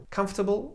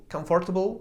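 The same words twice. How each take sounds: First: "Comfortable" clipped to KAMF-tuh-bl; British comfortable. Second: "comfortable" with all syllables, KOM-fort-bl; American comfortable. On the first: Showing how a Brit says comfortable. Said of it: "powie comfortable". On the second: Showing the other speaker's fuller comfortable. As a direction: spell out every syllable in "comfortable". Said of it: "ktoś inny i powie comfortable". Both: Shown as a demonstration.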